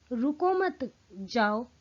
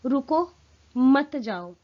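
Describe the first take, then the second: First: Slow "रुको मत जाओ" in one run, no break after "रुको"; no pause, run together. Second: "रुको," then a clear pause before "मत जाओ", pleading louder; pause after stop. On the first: Teacher showing the listener's other meaning, no pause after "रुको". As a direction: join "रुको मत" so it means don't stop, go. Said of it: "आप उसका अर्थ निकालें". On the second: Teacher showing students the meaning stay, pause after "रुको". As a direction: break after "रुको" so it means stay, don't go. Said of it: "मैं रुकने के अर्थ में कह रही हूँ". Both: Shown as a demonstration.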